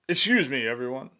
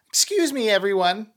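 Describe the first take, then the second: First: It is said in a deep, male-sounding voice. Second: It is said in a higher, female-sounding voice. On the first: The speaker calls it wrong. "I said it in a dude's voice" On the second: The speaker calls it right. "it's going to be a petite young woman. So let's fucking do that again"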